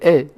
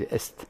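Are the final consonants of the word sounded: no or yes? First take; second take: no; yes. First: The final s and t are silent. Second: The final s and t are clearly sounded. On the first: "Ça se prononce pas" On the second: "en latin, ça se prononçait. On dit est"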